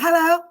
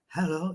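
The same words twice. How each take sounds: First: The voice is clear and smooth. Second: The voice is rough and raspy. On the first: This is how she used to sound. "She used to be like" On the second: She sounds like the speaker. "she sounded like me, like hello. You know how I have a raspy voice"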